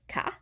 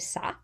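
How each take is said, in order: First: The word begins with a hard K sound. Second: The word begins with a soft S sound. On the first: The speaker calls it wrong. "instead of ca" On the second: The speaker calls it right. "Ça has the cedilla"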